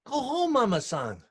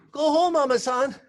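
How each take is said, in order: First: Higher, louder gentle command; gentle urging. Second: Louder, higher repeat of Go home; firmer urging. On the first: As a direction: send her home kindly. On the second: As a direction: insist more strongly this time. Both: Retold or imitated. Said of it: "And he say".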